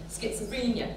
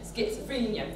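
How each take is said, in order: First: One syllable is stressed, the others squished. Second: The same.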